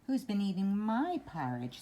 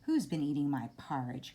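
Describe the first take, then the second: First: A medium-sized Mama Bear voice. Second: A big, grumpy Papa Bear voice.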